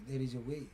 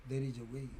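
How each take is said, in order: Both takes have the same delivery.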